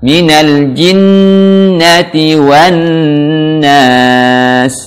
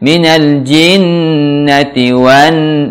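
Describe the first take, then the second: First: "jinnati" chanted slowly, straight into long N; correct direct gunnah. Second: "jinnati" slowly swung before the held N; swayed, wrong recitation. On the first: Teacher showing the right way, unswayed slow chant of "jinnati". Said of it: "langsung masukkan". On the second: Teacher showing learners the mistake, swaying slow "jinnati". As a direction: let "Minal jinnati" waver, delaying the N. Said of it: "jangan di, di ayun-ayun". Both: Shown as a demonstration.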